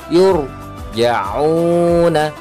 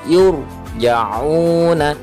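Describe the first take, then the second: The two takes are said the same way.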